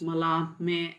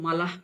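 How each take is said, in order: First: The name ends with an extra may syllable. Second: The name is said with only two syllables. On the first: "ಮಲ ಮೇ ಅಂತಲೂ ಹೇಳುವಂಥವ್ರು ಇದ್ದಾರೆ" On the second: "so ಮಲ"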